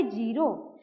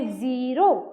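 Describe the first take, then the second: First: ज़ीरो said as jiro with a plain j; ज़ीरो with j as in jam, no dot sound. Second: ज़ीरो said with a buzzing z; ज़ीरो starting with a clear z as in zero; nukta z sound. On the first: Teacher shows students the reading without nukta, plain j. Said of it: "तो हम इसको normally पढ़ते". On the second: Teacher shows students the nukta reading, clear z. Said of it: "लेकिन ये लग गया बिंदु". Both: Shown as a demonstration.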